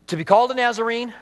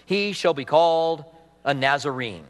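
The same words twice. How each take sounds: First: "called" lifted high and pushed a little faster; called stressed, brisk and raised. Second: Said in the usual way. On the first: Shown as a demonstration. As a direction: lean on the word "called".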